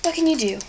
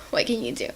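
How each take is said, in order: First: Higher and louder, a throw-up-your-hands question; exasperated shrug. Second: Said in the usual way. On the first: Real, not acted. Shrugging off her uneven cut crease with mock despair.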